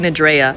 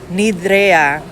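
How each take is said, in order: First: The name is said without Spanish pronunciation. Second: The name is said with Spanish pronunciation. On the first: "but it could be" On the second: "I'm pronouncing it all like in Spanish"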